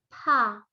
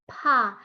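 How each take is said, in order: No difference in how they are said.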